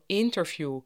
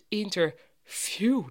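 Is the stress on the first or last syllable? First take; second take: first; last. First: The stress is on the first syllable. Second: The stress is on the last syllable. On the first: This is how English speakers say it. The speaker calls it right. "Engelstalige mensen ... zeggen allemaal interview" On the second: This is the older local way of saying it. The speaker calls it wrong. "klinkt vandaag de dag raar, maar wel gezellig en huppelig. Het lijkt of er een opluchting aan het eind van het woord zit"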